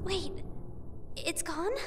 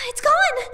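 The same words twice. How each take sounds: First: Soft, rising, barely above a breath; stunned question. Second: Higher and louder, falling hard; panicked exclamation. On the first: Mayu finding her charm missing, quiet disbelief. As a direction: ask it quietly, not believing it yet. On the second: Mayu realizing her charm is truly gone, panicked shout. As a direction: cry it out in alarm. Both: Acted.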